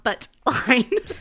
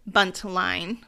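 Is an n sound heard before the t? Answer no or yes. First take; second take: no; yes. First: The n sound is dropped before the t. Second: The n sound is pronounced before the t. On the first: The speaker calls it wrong. "not Buttline" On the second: The speaker calls it right. "I need to enunciate"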